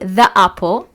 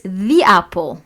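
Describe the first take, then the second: First: 'The' uses the form said before consonant sounds. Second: 'The' uses the form said before vowel sounds. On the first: The speaker calls it wrong. "ما أقول the apple" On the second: The speaker calls it right. "It's the apple"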